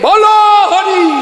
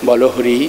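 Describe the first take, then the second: First: The phrase is shouted loudly. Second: The phrase is said quietly and calmly. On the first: It frightens people who hear it. The speaker calls it wrong. "এমন চিৎকার করে উঠবে" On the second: It is said without disturbing anyone. The speaker calls it right. "আস্তেও তো বলা যায়"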